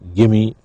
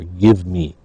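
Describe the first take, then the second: First: The two words blend into a reduced form. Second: The two words are said fully and separately. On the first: "gimme for give me" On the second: "the full form"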